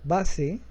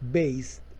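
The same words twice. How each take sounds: First: It is said with a Spanish pronunciation. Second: It is said with an English pronunciation.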